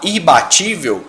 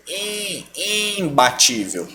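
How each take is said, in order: First: IBATÍVEL with an oral I, no M; IBATÍVEL, first I purely through the mouth; oral vowel. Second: IMBATÍVEL with a held nasal IM; nasal vowel. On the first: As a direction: say IBATÍVEL without nasality. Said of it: "ao invés de você falar". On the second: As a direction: bring the I of IMBATÍVEL through the nose. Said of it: "trazer esse I pro nariz". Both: Shown as a demonstration.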